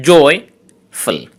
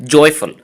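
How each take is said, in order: First: Joyful split into two syllables with a pause. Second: Said in the usual way. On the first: Shown as a demonstration. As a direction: say joyful in two separate beats. (joyful দুই সিলেবলে ভেঙে থেমে থেমে) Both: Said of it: "disyllabic words".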